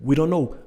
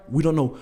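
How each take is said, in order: Both takes have the same delivery.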